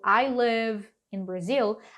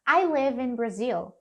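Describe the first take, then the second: First: The words live and in are said separately. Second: The words live and in run together smoothly. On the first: "ao invés de falar" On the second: "a gente pode fazer meio que uma conexão natural aqui"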